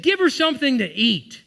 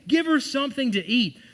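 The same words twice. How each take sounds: First: Preached command. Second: Higher, louder repeat; preached command repeated. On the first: Jesus quoted at climax. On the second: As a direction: hammer it home. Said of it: "That's what he said". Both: Retold or imitated.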